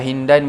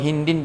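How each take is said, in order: First: The word ends with an 'an' sound. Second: The word ends with an 'in' sound. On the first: The noun is read in the accusative case. "boleh dibaca mansub" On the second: The noun is read in the genitive case. "boleh dibaca majrur"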